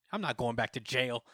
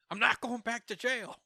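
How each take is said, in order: First: Said in the usual way. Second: High-pitched, defiant repeat; hammed-up high protest; mock outburst. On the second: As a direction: blurt it out high, acting a villain's panicky refusal. Moro's refusal repeated, escalated.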